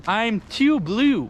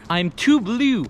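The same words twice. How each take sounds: First: Slow stretched mock croon; stretched, sing-song I'm too blue; slow drawn-out. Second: Said in the usual way. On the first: Shown as a demonstration. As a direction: drag out too blue lazily.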